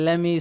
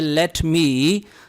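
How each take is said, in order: First: The words are run together, dropping the t. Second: Both words are said fully and separately. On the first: "हम आमतौर पर कहते हैं लेमी" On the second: "ये लेट मी है"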